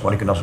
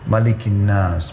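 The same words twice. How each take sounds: First: It is recited fast and hurried. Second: It is recited slowly, then a stop.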